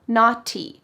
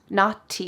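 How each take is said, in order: First: The middle consonant is a clear T. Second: The middle consonant is a clear T.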